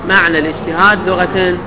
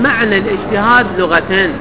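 No difference in how they are said.

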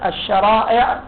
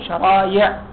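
First: The middle consonant is a glottal stop. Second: The middle consonant is a y sound. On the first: This is the original form of the word. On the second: This is the lightened form of the word.

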